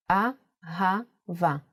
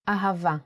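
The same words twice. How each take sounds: First: Very slow "Ahava", broken into A, ha, va with pauses; syllable by syllable. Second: Said in the usual way. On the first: Shown as a demonstration. Teacher sounding out "Ahava" while writing it, slowly syllable by syllable. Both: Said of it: "Let's do it once more in handwriting".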